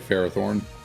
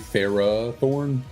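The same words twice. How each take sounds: First: The first vowel is short and quick. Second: The first vowel is drawn out long. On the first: "I just say Ferrothorn" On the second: "you're supposed to extend the A"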